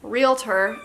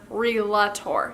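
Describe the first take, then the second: First: The l comes after the vowel, making real-tor. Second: The l comes before the vowel, making re-la-tor. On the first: The speaker calls it right. "Realtor is what it's called" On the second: The speaker calls it wrong. "when people pronounce the word realtor, relator"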